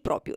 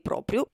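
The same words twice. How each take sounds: First: One r sound is dropped. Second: Both r sounds are pronounced. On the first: The speaker calls it wrong. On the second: The speaker calls it right.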